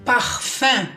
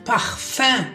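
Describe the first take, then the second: No difference in how they are said.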